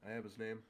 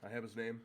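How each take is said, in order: Both takes have the same delivery.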